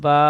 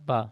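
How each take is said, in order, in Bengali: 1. স্বরটিকে টেনে লম্বা করা হয়। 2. স্বরটি টান ছাড়া ছোট করে বলা হয়। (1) "একালিফ টান দিয়ে পড়তে হবে" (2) "বিনা টানে পড়েছিলাম"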